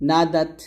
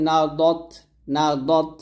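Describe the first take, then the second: First: না দাত with light open D; thin dal. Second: না দত with heavy rounded D; thick dad. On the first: Teacher giving the light example, না দাত with thin D. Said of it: "দালটা হবে পাতলা". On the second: Teacher giving the heavy example, না দত with thick D. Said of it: "দদ মোটা হবে". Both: Shown as a demonstration.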